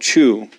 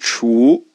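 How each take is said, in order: First: It sounds like the English word chew. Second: It blends ch with a wu vowel. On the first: The speaker calls it wrong. "You might think, oh, chew" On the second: The speaker calls it right. "you get a more correct sound for the Chinese version of it"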